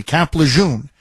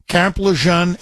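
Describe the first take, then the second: First: Lejeune with a long "oo", luh-ZHOON; self-corrected luh-zhoon in Lejeune. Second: Lejeune with a short "zhun" ending; mispronounced Lejeune. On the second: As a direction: end Lejeune on a short "uh" vowel, like "luh-ZHUN". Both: Real, not acted. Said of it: "forgive me, Camp Lejeune".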